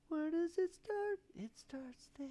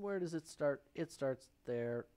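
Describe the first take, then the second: First: Squeaky high, slowly drawn-out echo; silly high voice. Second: Said in the usual way. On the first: Pretend. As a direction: repeat it in a playful, very high voice. Repeats the words in silly high voice.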